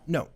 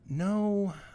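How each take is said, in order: First: A short, confident no with a falling tune. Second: A weak, hesitant no without firmness.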